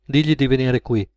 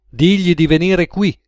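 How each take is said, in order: First: Said in the usual way. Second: DIGLI pushed higher and firmer; insistent repeated order. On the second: Acted. Gunman to George after being questioned, insistent. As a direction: press the order home, starting strong on "Digli".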